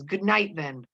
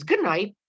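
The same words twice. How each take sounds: First: Mildly angry, curt dismissal; anger. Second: Higher, louder retort; dissatisfied, self-assured. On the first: Proctor dismissing Mary Warren to bed, mildly angry. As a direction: send her off with a touch of anger. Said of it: "Proctor in anger says". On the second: Mary Warren answering Proctor's dismissal, dissatisfied and self-assured. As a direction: throw it back, sure of yourself. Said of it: "dissatisfied and certain of herself". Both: A narrator's reading.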